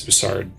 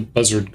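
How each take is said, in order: First: It does not sound like the bird name. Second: It sounds like the bird name buzzard. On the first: The speaker calls it right. "I know it's Bussard" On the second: The speaker calls it wrong. "I know it's Bussard. I'm doing it on purpose"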